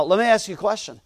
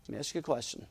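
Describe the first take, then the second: First: Said in the usual way. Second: Very soft, lower aside; hushed repeat. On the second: Real, not acted. Preacher putting a question to the congregation, hushed. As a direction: drop right down for the question.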